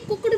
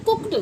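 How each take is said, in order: First: "कुक्ड" with a voiced d at the end; wrong d ending. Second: "कुक्ड" said as "kookt"; correct t ending. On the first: Teacher shows learners the mistake, कुक्ड with d. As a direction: say "कुक्ड" as spelt, "kook-d". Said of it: "जबकि कुक्ड नहीं होता". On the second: Teacher corrects learners, कुक्ड with t ending. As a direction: finish "कुक्ड" on t, not d. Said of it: "ये होता है कुक्ड". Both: Shown as a demonstration.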